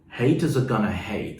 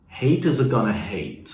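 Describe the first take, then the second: First: Going to is contracted to gonna. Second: The same.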